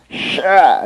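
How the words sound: It is said tensely, as if straining. The speaker calls it wrong.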